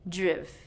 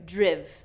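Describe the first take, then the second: First: The vowel is a short I sound. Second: The vowel is a short I sound.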